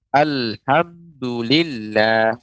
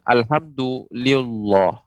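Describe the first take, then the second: First: The final 'lah' is said thin and light. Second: The final 'lah' is said thick and heavy. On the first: The speaker calls it right. "lafat Allah dibaca tipis" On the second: The speaker calls it wrong. "bukan Alhamdulillah. Maka ini keliru"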